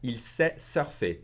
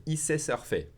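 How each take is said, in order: First: Said in the usual way. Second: "Il" said as just "i", no L; dropped L. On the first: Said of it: "If I say it faster". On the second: Shown as a demonstration. Teacher saying it faster, "Il" pronounced without its L. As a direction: run "Il sait" together as "i sait". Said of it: "I'll drop the L and say".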